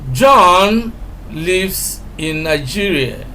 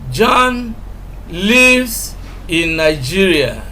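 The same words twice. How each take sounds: First: The word John carries the strongest stress. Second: The word lives carries the strongest stress. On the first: It is this person, not another, who lives there. "we are emphasizing John" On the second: He resides there rather than merely visiting. "we are emphasizing lives"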